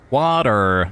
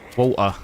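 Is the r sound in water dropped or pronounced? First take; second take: pronounced; dropped. First: The r sound is strongly pronounced. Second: The r sound is dropped. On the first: "The R's are like really uh, accentuated" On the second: "in British like accent, it's barely even a word"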